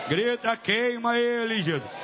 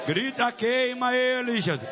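The two takes are said the same way.

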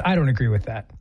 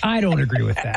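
First: Much lower, put-on deep voice; mock deep voice. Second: Put-on low voice, repeated deadpan; mock deep voice. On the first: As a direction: drop it low in mock protest. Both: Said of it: "women with deep voices".

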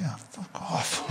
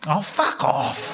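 First: Half-voiced, slow, much softer; barely voiced slow mutter; under the breath. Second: Slow and drawn out, voiced at normal level; drawn-out voiced fuck off; out loud. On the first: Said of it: "like that, under my breath". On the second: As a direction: let it slip out loud, dragged out. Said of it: "out loud I just went".

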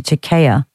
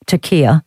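First: Turkiya said as "tur-KAY-a"; second syllable as KAY. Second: Turkiya said as "tur-KEE-a"; second syllable as KEE. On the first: Host trying the country's new name, Turkiya as tur-KAY-a. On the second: Host correcting the country's new name, Turkiya as tur-KEE-a. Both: Shown as a demonstration. Tries two pronunciations of name.

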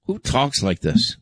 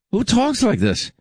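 First: Said in the usual way. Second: Much higher, pitched up in disbelief; incredulous outburst. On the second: Real, not acted. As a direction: throw it out in appalled disbelief. Disgusted host repeats question.

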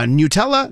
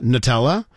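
First: Nutella as "nyoo-TELL-uh" with a rising end; new-tella version. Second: Nutella with a short "nuh" start; nuh-tella version. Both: Shown as a demonstration. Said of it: "Nobody agrees on the first syllable".

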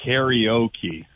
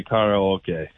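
First: Karaoke said as "KAIR-ee-OH-kee"; American pronunciation. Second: Karaoke said as "kah-rah-oh-keh"; Japanese pronunciation. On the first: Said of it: "most Americans would say". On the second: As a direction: give karaoke pure Japanese vowels, ending in "keh". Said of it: "the Japanese would say". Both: Shown as a demonstration.

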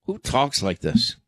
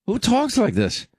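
First: Said in the usual way. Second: Who talks like this, pitched way up in disbelief; incredulous. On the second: Real, not acted. Host repeating the question in disbelief, way up high. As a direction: throw it up high, aghast.

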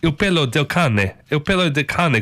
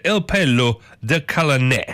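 First: "Il pelo del cane" said fluently with an Italian CAH-neh; familiar Italian pronunciation. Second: "El pelo del cane" read out slowly and haltingly, stumbling in cane; read off the page. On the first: Correcting the read-out Italian, "Il pelo del cane" said confidently. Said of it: "read it how I know how to". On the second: Reading the Italian phrase to viewers, "El pelo del cane" slowly sounded out. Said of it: "I shouldn't read that". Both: Shown as a demonstration.

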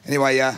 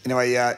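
Both takes have the same delivery.

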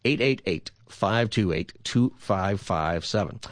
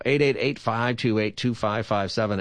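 First: Digits spaced out for listeners; deliberate, measured phone-number read; said slower. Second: Phone number rattled off quickly; brisk radio phone-number read; too fast. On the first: Shown as a demonstration. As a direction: give the number slowly, group by group. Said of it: "I'll say it slower". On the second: Real, not acted. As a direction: run the digits together in quick groups. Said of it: "You said it too fast".

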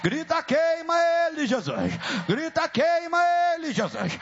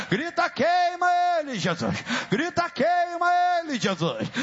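The two takes are said the same way.

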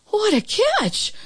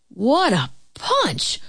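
First: Put-on very high, drawn-out girl's amazement; amazed exclamation. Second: Slow, drawn-out man's amazement; amazed exclamation. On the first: Girl amazed by the super's catch, high slow exclamation. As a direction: exclaim it slowly, pitched right up. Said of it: "was all she could say". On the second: Super amazed by the girl's hit, slow exclamation. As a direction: stretch out each word in wonder. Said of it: "was all he could say". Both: A narrator's reading.

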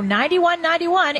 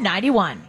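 First: Said in the usual way. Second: Slow, breathy whispered digits. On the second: Acted. Host reading the phone number to listeners, whispered slowly. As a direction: hush the number like a secret.

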